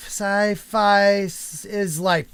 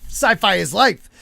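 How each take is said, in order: First: Each word drawn out slowly; slow careful reading. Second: Said in the usual way. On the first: Shown as a demonstration. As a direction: read the name slowly to get it right. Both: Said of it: "Sci-Fish Life".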